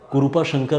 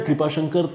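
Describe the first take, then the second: First: The first word has a vowel between k and r. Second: The first word starts with a tight kr cluster. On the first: This is how the name is said in South India. "ऐसा pronounce करते होंगे शायद south India में" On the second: This is how the name is said in North India. "कृपा शंकर तो इधर north India में होता है"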